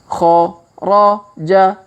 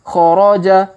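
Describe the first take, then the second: First: The syllables are said slowly and separately. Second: The syllables are said quickly and run together. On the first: "Kita baca bersama pelan-pelan" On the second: "Kalau dipercepat"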